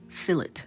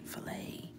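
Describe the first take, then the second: First: The final T sound is pronounced. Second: The final T sound is left silent. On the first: The speaker calls it wrong. "what's the word that my husband says that drives me crazy?" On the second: The speaker calls it right. "Ignore that T"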